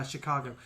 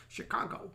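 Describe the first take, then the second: First: Said in the usual way. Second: Hushed, higher stab at an American Midwest accent; half-hearted Indiana accent, almost whispered; attempted Indiana accent. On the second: Shown as a demonstration. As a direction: try an Indiana accent under your breath. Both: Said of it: "I can't do an Indiana accent".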